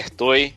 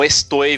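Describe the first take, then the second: First: The s before the t is softened, almost dropped. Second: The s before the t is pronounced clearly. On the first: "eles comem o S" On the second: "eles comem o S"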